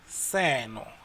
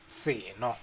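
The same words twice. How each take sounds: First: The word is said with a higher pitch. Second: The word is said with a lower pitch. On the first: It means this or this thing. "it goes higher there for seno" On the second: It means a drink. "Seno means drink"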